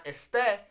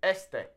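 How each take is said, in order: First: "este" stressed on the last E, es-TE; wrong final stress. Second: "este" stressed up front, ES-te; stress on first E. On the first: Teacher showing learners the mistake, "este" stressed at the end. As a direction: punch the second syllable of "este". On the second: Teacher correcting the mistake, "este" stressed on its first E. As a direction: lean on the first E of "este", let the end fall. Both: Shown as a demonstration. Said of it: "the emphasis falls on that first E".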